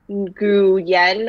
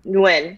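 First: The name is sounded out letter by letter. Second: The name sounds like the single syllable 'wing'. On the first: The speaker calls it wrong. "instead of saying like Nguyen or whatever you would pronounce phonetically" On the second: The speaker calls it right. "you just say it Nguyen and that's it"

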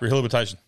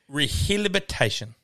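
First: The word is said at a fast pace. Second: The word is said at a normal pace. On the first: "say it faster" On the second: "But it is pronounced"

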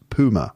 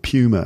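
First: It is said with a non-English pronunciation. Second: It is said with an English pronunciation.

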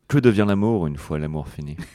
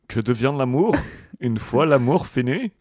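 First: It is said in his normal French accent. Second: It is said in a put-on German accent.

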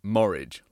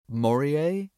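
First: The name ends like porridge. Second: The name does not end like porridge. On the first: The speaker calls it wrong. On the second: The speaker calls it right.

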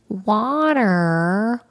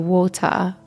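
First: It is said with an American accent. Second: It is said with a British accent.

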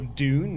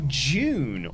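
First: The word is said with an American accent. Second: The word is said with a British accent.

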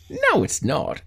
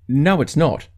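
First: It sounds disbelieving, like refusing to believe it. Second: It sounds matter-of-fact, stating a plain fact.

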